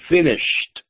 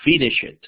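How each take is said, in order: First: The ending is a plain t sound. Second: The ending is an extra syllable. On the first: The speaker calls it right. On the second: The speaker calls it wrong.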